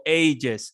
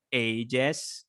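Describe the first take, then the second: First: "ages" with a weak ending, "ay-juhs"; second pronunciation variant. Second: "ages" with a clear e, "ay-jess"; slow "ages", full vowel in the second syllable; first pronunciation variant. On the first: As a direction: reduce the second vowel of "ages" to a schwa. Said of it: "It's up to you". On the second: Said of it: "you can write ages or ages". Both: Shown as a demonstration.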